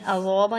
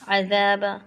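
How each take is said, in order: First: The first consonant is heavy and thick. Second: The first consonant is light and thin. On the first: The speaker calls it wrong. "नहीं पढ़ना है कि जॉ बन जाएगा ये" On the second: The speaker calls it right. "अज़ाब ऐसे पढ़ना है"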